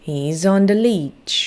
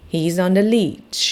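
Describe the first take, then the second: First: Slow model sentence. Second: He's on the leech, each word slow and separate; slow model sentence. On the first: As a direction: repeat He's on the leech slowly for kids to echo. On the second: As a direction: read He's on the leech very slowly for kids to copy. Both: Shown as a demonstration. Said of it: "ลองพูดตามสิคะ".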